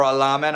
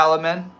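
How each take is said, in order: First: Alamin as "uh-LAH-min"; alternative name pronunciation. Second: Alamin as "AL-uh-min"; alternative name pronunciation. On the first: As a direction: stress the middle of Alamin, with an open "ah". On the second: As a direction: stress the first syllable of Alamin, with a short "a". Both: Real, not acted. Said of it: "I don't know how you say that".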